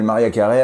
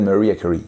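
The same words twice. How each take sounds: First: The name is said with French pronunciation. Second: The name is said with English pronunciation. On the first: "En France, Mariah Carey s'appelle" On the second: "dans son pays d'origine, elle s'appelle"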